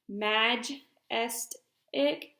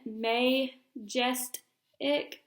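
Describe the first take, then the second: First: The first vowel is a short A, syllables separated. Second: The first vowel is a long A, syllables separated. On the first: "making it closed" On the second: "that would make it an open"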